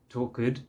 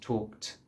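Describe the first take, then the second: First: An extra vowel is added before the final t. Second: The ending is a plain t with no vowel. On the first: The speaker calls it wrong. "you don't need to say uh, talked" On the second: The speaker calls it right. "just talked"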